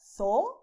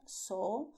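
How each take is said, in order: First: "zoo" said as "tho", slow and loud; Castilian Z. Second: "zoo" said as "so", with an S; Latin American Z. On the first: Teacher showing Spain's "zoo" with a TH sound. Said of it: "in Spain". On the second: Teacher showing Latin American "zoo" with an S. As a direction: say "zoo" with an S sound. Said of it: "in Latin America". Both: Shown as a demonstration.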